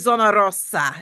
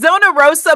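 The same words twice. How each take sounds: First: The r in Rosa is rolled with the tongue. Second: The r in Rosa is plain, not rolled. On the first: "I like to say Zona Rosa and roll the tongue" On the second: "It's Zona Rosa"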